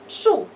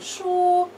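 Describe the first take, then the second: First: It carries the tone of the word 'tree'. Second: It carries the tone of the word 'book'. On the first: The word means tree. "дерево" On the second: The word means book. "книга"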